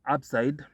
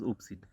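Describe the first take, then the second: First: The first vowel sounds like 'up'. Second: The first vowel sounds like 'oop'. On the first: The speaker calls it right. "the YouTube channel is called Upside Digital Networks" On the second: The speaker calls it wrong. "if you're very primitive, then uh, you'd you you'd pronounce it as oopsid"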